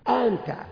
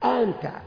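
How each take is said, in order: First: The second glottal stop is softened toward a long a. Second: The same.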